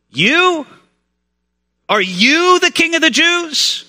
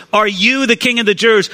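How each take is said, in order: First: Incredulous high, drawn-out "You?", then YOU stressed in the question. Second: Said in the usual way. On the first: Acted. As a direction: hit "you" high, as if doubting it's him. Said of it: "particular emphasis on the word "you". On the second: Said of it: "a particular emphasis on the word".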